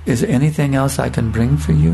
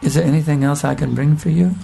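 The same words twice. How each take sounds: First: A hint of a tender, loving host; sweet, tender, loving voice. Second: Very sweet voice. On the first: Sannyasi asking the visiting brahmachari, mildly sweet and loving. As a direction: offer it gently, with warmth. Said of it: "In a very sweet, tender, loving voice". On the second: Retold or imitated. Famous sannyasi offering a young brahmachari more food, lightly sweet and tender. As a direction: ask it sweetly, like a host pressing more food on a guest. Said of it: "he says in a very sweet voice".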